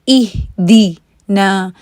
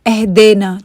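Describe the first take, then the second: First: The vowels sound like the ee in see. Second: The vowels sound like the e in get. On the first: The speaker calls it right. "इसको आपने ई ई करके पढ़ना है" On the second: The speaker calls it wrong. "जैसा अक्सर लोग पढ़ते हैं एह देना"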